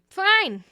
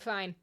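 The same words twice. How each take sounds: First: Much higher, loud burst of giving in; mock-exasperated studio shout; exasperated yell. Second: Said in the usual way. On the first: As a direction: cave in with an exploding shout. Acted studio giving in to re-recording.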